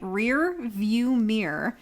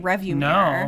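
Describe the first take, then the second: First: The first part sounds like 'rear view'. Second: The first part sounds like 'review'. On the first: The speaker calls it right. "See, I can't say it right" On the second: The speaker calls it wrong. "I always say review mirror"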